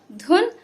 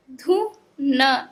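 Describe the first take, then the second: First: "धुन" as one blended word, higher pitched; joined up. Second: "धु", pause, "न", slowly; broken into sounds. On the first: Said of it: "एक साथ में मिला के पढ़ें". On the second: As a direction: sound out "धु" and "न" separately. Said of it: "तोड़ तोड़ के पढ़ना". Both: Shown as a demonstration.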